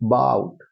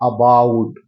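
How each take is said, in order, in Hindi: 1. पहला स्वर छोटा और आधा schwa है। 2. पहला स्वर पूरा खुला 'aa' है। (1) "इसमें भी आधा बोला जाएगा, बहुत शॉर्ट बोला जाएगा" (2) "लोग बोलते हैं अबाउट, अबाउट नहीं है ये"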